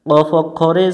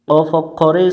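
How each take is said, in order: No difference in how they are said.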